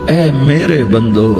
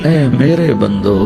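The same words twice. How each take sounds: Both takes have the same delivery.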